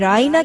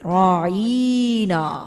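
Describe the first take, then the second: First: The vowel after the 'ain' is short. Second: The vowel after the 'ain' is drawn out long. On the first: A polite request to be heard. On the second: An insult calling him our shepherd.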